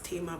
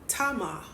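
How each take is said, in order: First: The name is pronounced the common English way. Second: The name is pronounced the Hebrew way. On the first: "I know you guys pronounce it as Tamar" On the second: "I'm pronouncing it the Hebrew way"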